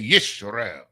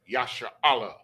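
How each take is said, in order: First: The word is said as Yis-ra-el. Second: The word is said as Ya-sha-ra-al. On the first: This is how another group says it. The speaker calls it wrong. "They say Yisrael" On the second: This is the original form of the word. The speaker calls it right. "where we say Yasha'Allah, which is the is the original word"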